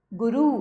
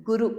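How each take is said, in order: First: गुरु ending on a long "oo"; rising गुरु with the last vowel held; wrong long ending. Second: Said in the usual way. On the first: Shown as a demonstration. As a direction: stretch गुरु to "gu-ROO". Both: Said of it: "नहीं, गुरु".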